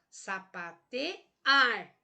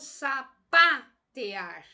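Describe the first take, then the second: First: The stress is on the syllable ar. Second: The stress is on the syllable pa. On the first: The speaker calls it right. "Agora vamos ver a última sílaba, o ar" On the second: The speaker calls it wrong. "vamos colocar uma pronúncia mais forte na sílaba pá"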